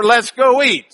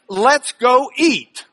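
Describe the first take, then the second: First: Let's go eat in a quicker Texas twang; Lubbock accent. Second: Slow West Texas drawl on Let's go eat; drawn-out Texas Panhandle accent; Lubbock drawl. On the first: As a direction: say it like a Lubbock local, go punched. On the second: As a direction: stretch it out like a Lubbock local. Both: Shown as a demonstration. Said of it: "That's Lubbock for".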